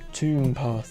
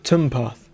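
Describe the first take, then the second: First: The first vowel is long. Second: The first vowel is short. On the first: "What would be a long U?" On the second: "a short U"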